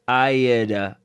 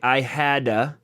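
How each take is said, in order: First: The h sound in had is dropped. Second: The h sound in had is pronounced. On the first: "dropping of the H completely" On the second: "he didn't say I hadda"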